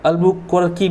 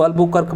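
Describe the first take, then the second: First: अल्बुकर्की with a long ee added after the final k; Albuquerque said Albukarki. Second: अल्बुकर्क ending on a clipped k, no final vowel; Albuquerque said Albukark. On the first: Teacher giving the other way people say अल्बुकर्की, with a final ee. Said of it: "अल्बुकर्की बोलते हैं". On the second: Teacher giving one way people say अल्बुकर्क, ending on k. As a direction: say अल्बुकर्क with a hard stop on the last k. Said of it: "इसको कुछ लोग अल्बुकर्क बोलते हैं". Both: Shown as a demonstration.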